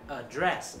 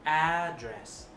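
First: The stress is on the second syllable. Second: The stress is on the first syllable. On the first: The speaker calls it wrong. "chữ này không phải đọc là address" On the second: The speaker calls it right. "Đây là danh từ cho nên mình sẽ nhấn âm đầu"

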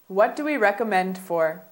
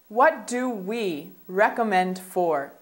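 First: The sentence is spoken at a faster pace. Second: The sentence is spoken at a slower pace.

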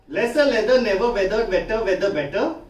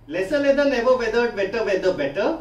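No difference in how they are said.

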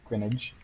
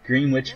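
First: Said as gren-itch, rhyming with spinach. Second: Said as two full words, green and witch. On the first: The speaker calls it right. "It's kind of like spinach, but it's Greenwich" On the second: The speaker calls it wrong. "nope, that's not how you say it"

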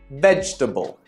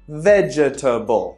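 First: A middle syllable of the word is dropped. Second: Every syllable of the word is pronounced in full. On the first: The speaker calls it right. "try vegetable" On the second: The speaker calls it wrong. "rather than saying vegetable"

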